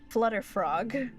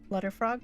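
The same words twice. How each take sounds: First: The word is said slowly and carefully. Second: The word is said quickly in rapid repetition. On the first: "Let me read that slowly" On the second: "Try saying that three times fast"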